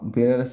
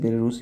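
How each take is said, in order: First: The last syllable has a short 'a' vowel. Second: The last syllable has a long 'oo' vowel. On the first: The speaker calls it wrong. "Sorry बेलारूस बोलते हैं" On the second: The speaker calls it right. "बेलारूस बोलते हैं"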